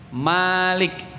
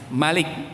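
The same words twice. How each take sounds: First: The first vowel is said long. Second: The first vowel is said short. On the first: It means owner. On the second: It means king.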